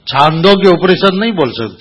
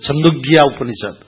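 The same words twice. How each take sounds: First: Said in the usual way. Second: छंदोग्य with a short first vowel, imitating a Punjabi speaker; छंदोग्य Upanishad, the long aa of छांदोग्य cut short; mock Punjabi way of saying छंदोग्य; Punjabi mispronunciation. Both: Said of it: "Punjabi जब बोलते हैं ना".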